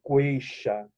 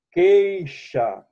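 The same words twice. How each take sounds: First: "queixa" with the u sounded as w, like kw-ei-xa; "queixa" with a w after the k, the mistaken way; wrong u sounded. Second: "Queixa" with a plain k sound, the u silent; "Queixa" clearly as k-ei-xa, u not sounded; digraph qu said as k. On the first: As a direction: say "queixa" as KWAY-sha, the wrong way on purpose. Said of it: "Se fosse queixa". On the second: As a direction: say "Queixa" as KAY-sha, no w after the k. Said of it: "Queixa, ó. Dígrafo". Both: Shown as a demonstration.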